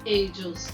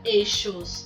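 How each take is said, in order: First: The middle consonant sounds like y. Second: The middle consonant sounds like sh. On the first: This is how other countries say it. "tem países que pronuncia ellos" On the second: This is how some countries say it. "Tem países que pronuncia eixos"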